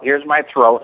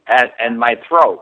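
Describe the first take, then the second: First: A tight, throat-squeezed voice, lightly done; throaty voice demo. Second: Said in the usual way. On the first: Shown as a demonstration. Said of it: "I sound a little like Don Knotts' Barney Fife".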